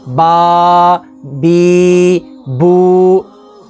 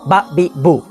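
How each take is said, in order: First: The vowels are stretched out long. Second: The vowels are cut off with a jerk. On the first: "ना ही लंबा करेंगे" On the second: "ना ही झटका देंगे"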